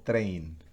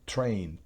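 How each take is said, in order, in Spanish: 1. La T es suave, sin soplo de aire. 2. La T tiene un soplo fuerte de aire. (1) "en español diríamos train" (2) "sino train"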